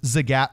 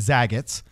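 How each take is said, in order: First: The name ends without an added s sound. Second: The name ends with an added s sound. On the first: The speaker calls it right. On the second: The speaker calls it wrong.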